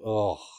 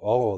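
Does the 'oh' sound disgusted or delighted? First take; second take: disgusted; delighted. First: The 'oh' sounds put off and disgusted. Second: The 'oh' sounds pleased and delighted. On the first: The smell is unpleasant. "those tequilas that the smell makes you go" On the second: The smell is very pleasant. "This smell makes you go, oh, that is so good"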